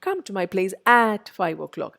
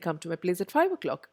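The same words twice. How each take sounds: First: The word 'at' is said fully and clearly. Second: The word 'at' is barely heard, very weak. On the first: The speaker calls it wrong. "But I don't say" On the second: The speaker calls it right. "I say ... At എന്ന് നിങ്ങൾ കേൾക്കുന്ന പോലും ഇല്ല"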